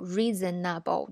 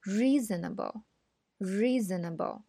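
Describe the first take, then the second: First: Reasonable with heavy consonants in four even syllables; REE-ZZEN-NNA-BO, choppy and unreduced; over-long consonants. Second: REEE-znəbl, smooth and linked; long vowel, light consonants. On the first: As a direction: dwell on the consonants in reasonable, every syllable full. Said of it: "这个辅音占的时间就太长了". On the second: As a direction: slowly model reasonable, vowel stretched, consonants light. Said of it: "元音是应该比辅音啊花费的时间长一些". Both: Shown as a demonstration.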